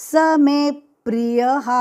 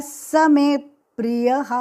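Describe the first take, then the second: The two takes are said the same way.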